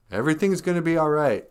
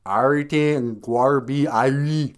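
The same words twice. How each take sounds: First: Said in the usual way. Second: Slow, louder mock Jamaican accent; hammed-up Jamaican accent. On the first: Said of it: "But in, uh, Jamaican accent". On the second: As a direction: draw it out in Jamaican patois. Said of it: "Jamaican accent".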